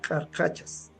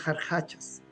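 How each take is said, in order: First: The word begins with a hard k sound. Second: The word begins with a breathy h-like sound. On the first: This is the form used locally. "aquí utilizamos más cultural, carcachas" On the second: This is the Quechua Chanka form. "en el quechua chanca le dicen jarjachas"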